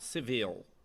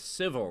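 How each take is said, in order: First: The stress is on the second syllable. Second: The stress is on the first syllable. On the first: The speaker calls it wrong. "not the second" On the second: The speaker calls it right. "the emphasis on the first syllable"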